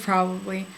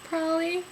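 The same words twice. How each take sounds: First: Said in the usual way. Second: "Probably" as a higher-pitched two-syllable "prolly"; "Probably" slurred to "prolly", pitched up; casual pronunciation. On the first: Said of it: "instead of probably". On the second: Shown as a demonstration. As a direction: drop the middle b's of "Probably": "prolly". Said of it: "in real life we know that I say".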